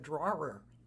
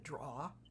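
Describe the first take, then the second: First: The word is said in a standard accent. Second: The word is said in a Boston accent. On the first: "it's a drawer" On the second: "I still say the thing that you pull out of the bureau, I say that's a draw"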